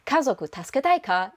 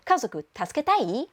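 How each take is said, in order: First: "Kazoku tasuketai ka?" with a spoken ka particle ending it. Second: "Kazoku tasuketai?" with no ka, voice rising at the end; rising question tune. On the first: Japanese tutor showing the form learners shouldn't use, ka kept. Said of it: "So instead of". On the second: Japanese tutor showing the casual question with rising inflection. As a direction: drop ka and let "tasuketai" lift. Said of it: "it would be". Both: Shown as a demonstration.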